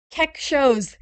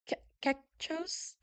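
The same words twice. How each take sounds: First: "Keck shows" said firmly as two words, KECK then SHOWS; corrected name pronunciation. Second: "Kechos" tried hesitantly, broken start, rising like a question; unsure name pronunciation. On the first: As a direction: land "Keck shows" confidently, two clear syllables. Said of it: "Got it". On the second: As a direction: sound out "Kechos" haltingly and slowly, unsure. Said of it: "'cause you told me how to pronounce it". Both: Shown as a demonstration.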